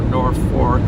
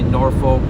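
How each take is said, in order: First: The name is said like two words, 'North Fork'. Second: The name is said as a short 'Norfolk'. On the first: "they were originally going to name the town North Fork" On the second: "since it's spelled Norfolk, it's probably the better way to say it"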